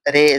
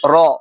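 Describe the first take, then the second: First: It is said with an Urdu 'ay' vowel. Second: It is said with an Arabic 'ah' vowel. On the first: This is the Urdu way of naming the letter. The speaker calls it wrong. "ये उर्दू है" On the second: This is the Arabic way of naming the letter. The speaker calls it right. "रे नहीं कहते बल्कि रॉ कहते हैं"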